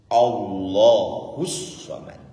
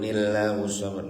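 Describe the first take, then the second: First: The 'l' in Allah is full and complete. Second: The 'l' in Allah is weak and mincing. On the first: The speaker calls it right. "Baca kalimat lam jalalah itu sempurna" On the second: The speaker calls it wrong. "kemenyek ngoten"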